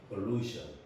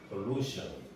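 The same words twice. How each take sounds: The two takes are said the same way.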